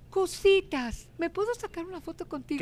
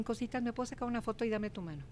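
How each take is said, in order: First: High, eager ask for a photo; a star sheepishly asking a fan; shy excited request. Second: Nervous fan. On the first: Actress asking the host for a photo, pitched high and eager. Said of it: "ella me dijo". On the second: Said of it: "Y empiezan así". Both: Retold or imitated.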